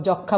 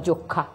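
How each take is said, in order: First: যক্ষা with open ɔ, "jawk-kha"; open vowel in যক্ষা. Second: যক্ষা with rounded o, "jok-kha"; wrong closed o. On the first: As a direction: say যক্ষা with first vowel wide. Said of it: "আমরা যক্ষা বলছি". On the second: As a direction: say যক্ষা with first vowel closed to o. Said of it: "বলছি না". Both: Shown as a demonstration.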